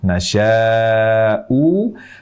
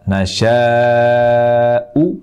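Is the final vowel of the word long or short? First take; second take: long; short. First: The final vowel is drawn out long. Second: The final vowel is short. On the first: "yang pendek ini menjadi panjang seperti ini" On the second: "tetap membaca harokat huruf terakhir"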